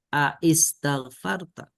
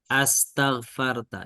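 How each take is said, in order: First: A separate 'a' sound comes before 'istaghfarta'. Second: The word starts directly with a single merged vowel. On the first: This is the underlying form before a sound was dropped. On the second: This is the form as written in the verse.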